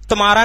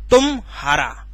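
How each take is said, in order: First: The word flows without any break inside. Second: A slight pause breaks the word after tum. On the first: The speaker calls it wrong. "तुम्हारा नहीं होता" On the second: The speaker calls it right. "यहां पर हल्का सा संगम होता है"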